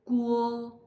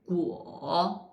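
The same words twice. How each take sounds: First: It is said with the first tone. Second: It is said with the third tone. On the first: "first sound sounds like Guo" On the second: "third tongue"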